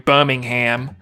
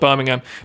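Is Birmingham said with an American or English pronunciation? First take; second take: American; English. First: It is said with an American pronunciation. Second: It is said with an English pronunciation. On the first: "like the Americans do" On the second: "people in England would call it"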